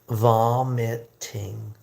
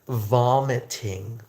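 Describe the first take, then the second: First: The word is said slowly and carefully. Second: The word is said at normal speed.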